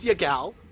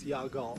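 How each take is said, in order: First: The name is said so it sounds like 'your gal'. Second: The name is said plainly as Yagao. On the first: The speaker calls it wrong. "you pronounce it like, oh, it's your boy. Oh, it's your gal" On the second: The speaker calls it right. "It's Yagao"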